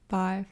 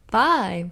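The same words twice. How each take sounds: First: It is said flatly, without excitement. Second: It is said with more excitement.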